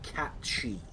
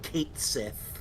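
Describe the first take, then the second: First: It is said as one word, 'catchy'. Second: It is said as two words, 'kate sith'. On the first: The speaker calls it right. "which is pronounced Catchy" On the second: The speaker calls it wrong. "not Kate Sith"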